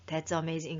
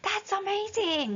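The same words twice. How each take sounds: First: It is said flatly and quietly. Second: It is exclaimed suddenly and loudly.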